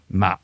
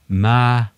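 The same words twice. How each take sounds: First: It is said with the tone meaning seedling. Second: It is said with the tone meaning ghost. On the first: It means rice seedling. "som betyr en liten risplante" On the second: It means ghost. "så betyr det spøkelse"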